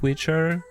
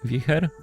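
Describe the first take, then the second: First: It is said like the English word witcher. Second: It is said like the Polish word for wind. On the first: "some pronounce it Witcher" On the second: "some say Wicher, because it's a Polish card, and Wicher is very strong wind"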